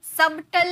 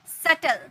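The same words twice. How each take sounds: First: "सबटल" with b before the t; sounded B. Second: "सटल" with no b before the t; silent B. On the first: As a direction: wrongly voice the b in "सबटल". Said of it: "सबटल नहीं बोलते हैं". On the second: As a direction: say "सटल" as sut-l. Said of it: "ये silent है". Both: Shown as a demonstration.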